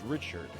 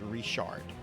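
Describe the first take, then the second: First: The name is said with English pronunciation. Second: The name is said with French-style pronunciation. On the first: This is how English speakers generally say the name. The speaker calls it wrong. "anybody that speaks English would pronounce that as Richard" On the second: This is how the name is said in South Louisiana. The speaker calls it right. "You pronounce that as Richard"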